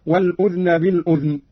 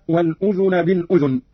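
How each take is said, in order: First: الأذن with sukun on the ذ; silent-vowel dhal. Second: Said in the usual way. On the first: Shown as a demonstration. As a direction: say الأذن as "al-udhn", no vowel after dh. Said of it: "بإسكان الذال هكذا". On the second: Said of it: "قرأ قالون بإسكان الذال".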